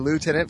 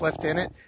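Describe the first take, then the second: First: It is pronounced the American way. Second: It is pronounced the British way. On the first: The officer referred to is American. "I'll say lieutenant for Americans" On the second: The officer referred to is British. "I'll say lieutenant if I'm referring to British lieutenant"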